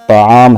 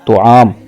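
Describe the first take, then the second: First: The first vowel is an 'a' sound. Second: The first vowel is a 'u' sound. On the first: The speaker calls it right. "तो पर ज़बर के साथ" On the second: The speaker calls it wrong. "लफ्ज़ बोलते हैं"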